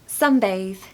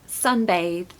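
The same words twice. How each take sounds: No difference in how they are said.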